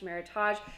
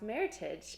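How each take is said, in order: First: It is said with a French-sounding ending. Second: It is said ending like the word heritage. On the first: The speaker calls it wrong. "people think it sounds French, it looks French, it must be French" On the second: The speaker calls it right. "pronounced meritage"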